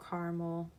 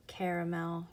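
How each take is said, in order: First: Caramel as CAR-mul, two syllables; two-syllable pronunciation. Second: Caramel as CARE-uh-mel, three syllables; three-syllable pronunciation. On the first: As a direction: drop the middle vowel in caramel, "KAR-ml". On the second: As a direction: say caramel with a middle vowel, "KAIR-uh-mel". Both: Shown as a demonstration. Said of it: "however you say it".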